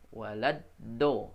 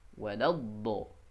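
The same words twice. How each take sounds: First: The consonant is a plain d from the tongue tip. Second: The consonant is made along the side of the tongue. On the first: The speaker calls it wrong. "kalau dari ujung lidah bunyinya waladdo" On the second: The speaker calls it right. "yang betul adalah dari sisi"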